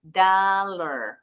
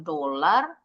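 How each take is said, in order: First: DOLLAR as "daa-ler", long open a, falling; pelafalan benar. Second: DOLAR with an Indonesian o, "do-lar"; salah ucap. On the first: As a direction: say DOLLAR the English way with "da". (DOLLAR dibaca "da-ler", bukan "do-lar") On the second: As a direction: say DOLAR wrongly as it is spelt. (DOLAR dibaca "do-lar", bunyi o) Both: Shown as a demonstration. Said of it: "Bacanya bukan dolar".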